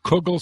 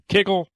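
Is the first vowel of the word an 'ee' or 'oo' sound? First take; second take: oo; ee. First: The first vowel is an 'oo' sound. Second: The first vowel is an 'ee' sound. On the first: "Some people pronounce it kugel" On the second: "some people pr- pronounce it kigel"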